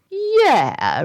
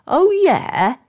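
First: High, falling defiant retort; come-and-fight-me. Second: High, challenging comeback; ready for a fight. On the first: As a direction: throw the challenge straight back. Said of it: "okay, then come on and fight me". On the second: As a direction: square up to them with a question. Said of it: "in an I'm ready for a fight sort of way". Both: Acted.

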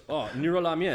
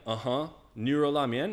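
First: Higher, louder, naming the dish; noodle shop guy. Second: Higher, louder, questioning rise; clueless learner repeating. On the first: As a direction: imitate a local telling a foreigner the dish's name. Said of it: "then the guy goes". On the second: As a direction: echo the foreign dish name as a tentative question. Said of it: "And I'm like". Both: Retold or imitated.

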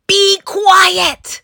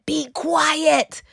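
First: High, firm yell to silence him; yelled rebuke. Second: Said in the usual way. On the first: A narrator's reading. Crowd telling the blind beggar to hush, yelling. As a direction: yell it as a sharp order. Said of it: "Many of the people yelled at him". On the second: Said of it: "yelled it at him in a loud voice".

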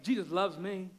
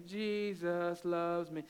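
First: Lightly imitating a girl's proud spoken Jesus loves me; spoken with swagger. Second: Put-on slow, sung Jesus loves me like a children's hymn. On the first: Dad retelling his daughter's car declaration, mild spoken swagger. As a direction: say it like a boast, not a song. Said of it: "again, with some swagger". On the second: Daughter leading the car in worship, slow sung hymn line. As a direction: sing it out gently, drawn long. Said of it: "And then started singing".

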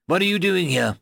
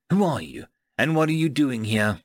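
First: High-pitched, forceful question; demanding. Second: Controlled, even-pitched question; careful. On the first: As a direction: demand an explanation from the intruder. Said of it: "demanded Ben". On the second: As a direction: ask warily, keeping anger out of it. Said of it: "he said, more carefully". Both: A narrator's reading.

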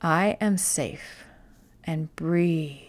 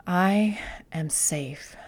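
First: Soft and slow, like a calming mantra; quiet self-soothing words; slow soft reassurance. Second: Whispered, very slow and soft; nice and slow whispered mantra. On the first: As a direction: tell yourself you're safe, gently. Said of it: "just tell yourself". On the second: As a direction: breathe the words out slowly. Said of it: "Say it nice and slow". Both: Shown as a demonstration.

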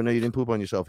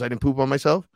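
First: "you didn't poop on yourself" falling at the end; reassuring answer. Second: "I didn't poop on myself?" rising at the end; checking question. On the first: Helper answering the worried tripper, falling matter-of-fact reassurance. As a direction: state it with YOURSELF settling downward. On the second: Tripper checking with his helper, rising uncertain question. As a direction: ask it with MYSELF lifting into a question. Question answered in same words. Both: Acted.

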